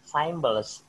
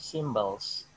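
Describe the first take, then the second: First: The first syllable sounds like 'sigh'. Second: The first syllable sounds like 'sim'. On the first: The speaker calls it wrong. "Symbols bukan say" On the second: The speaker calls it right. "instead of saying symbols"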